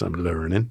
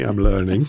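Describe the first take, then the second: First: It is said in a Texas accent. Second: It is said in the speaker's usual accent.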